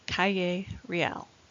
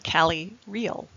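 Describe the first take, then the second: First: It is said with a Spanish pronunciation. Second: It is said with an English pronunciation. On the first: The speaker calls it right. "but instead it's" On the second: The speaker calls it wrong. "The more English pronunciation would be"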